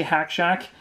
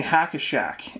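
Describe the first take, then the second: First: Said in the usual way. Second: "Hack-a-Shack" with an added "a" between the words; extra middle syllable. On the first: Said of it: "every time I say Hack Shack". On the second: Shown as a demonstration. Basketball fan confessing a slip, "Hack-a-Shack" with added syllable. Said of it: "I feel like I'm saying Hack-a-Shack".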